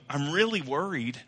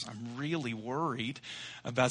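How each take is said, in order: First: Said in the usual way. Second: Hushed and fretful, dragging the words; nervous bride to mom. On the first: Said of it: "see what I mean?". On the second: Retold or imitated. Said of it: "She said".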